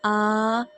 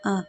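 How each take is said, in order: First: The vowel is stretched out long. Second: The vowel is short and smooth. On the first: The speaker calls it wrong. "हमें इस तरह अदा नहीं करना" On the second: The speaker calls it right. "हमने बिल्कुल नॉर्मली अदा करना है"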